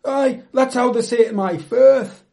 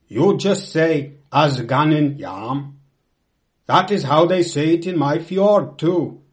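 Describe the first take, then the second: First: High, loud, hearty comeback; emphatic dialect reply. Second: Loud, deliberate Norwegian captain. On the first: Narrator replying to the Norwegian captain, loud proud dialect. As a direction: answer back proudly in Cumbrian dialect. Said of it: "I replied". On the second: Norwegian captain discussing language over cognac, loud and emphatic. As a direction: declare it proudly as a sea captain. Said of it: "was a Norwegian from a lonely fjord". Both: Acted.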